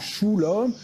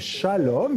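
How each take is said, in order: First: The first vowel is a u sound. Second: The first vowel is an a sound. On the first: The speaker calls it wrong. "ou shulom" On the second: The speaker calls it right. "c'est shalom"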